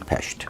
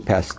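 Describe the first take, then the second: First: It is said the way locals say it. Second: It is said in a non-local way. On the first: The speaker calls it right. "they say Pest" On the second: The speaker calls it wrong. "They don't say Pest"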